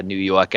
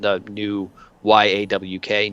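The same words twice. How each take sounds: First: Said in the usual way. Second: "Y A W K" drawn out as yawk, slowly; "Y A W K" said as a broad New York yawk. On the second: Shown as a demonstration. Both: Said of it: "New York accent".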